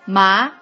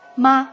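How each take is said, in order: First: The pitch rises from middle to high. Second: The syllable is short, light and unstressed. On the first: It means fiber. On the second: It marks a question. "question mark"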